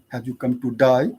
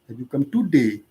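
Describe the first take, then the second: First: The last vowel sounds like 'die'. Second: The last vowel sounds like 'day'. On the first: "Australians generally... day becomes die" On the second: "in most parts of the world, it is not die, it is day"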